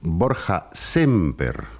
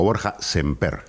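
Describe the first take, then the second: First: The stress falls on the first syllable of Semper. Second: The stress falls on the last syllable of Semper. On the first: "con acento en la E, llana"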